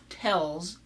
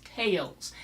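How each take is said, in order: First: "tells" with short E in place of long A; lazy mispronunciation. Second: Said in the usual way. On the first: Shown as a demonstration. Mocking a politician's vowel, "tells" with short E. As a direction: flatten tales into "tells". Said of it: "It's not tells". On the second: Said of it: "it's tales".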